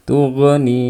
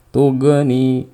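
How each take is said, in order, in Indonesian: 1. Bunyi gh diakhiri dengan gema yang memantul. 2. Bunyi gh diakhiri dengan gema yang memantul.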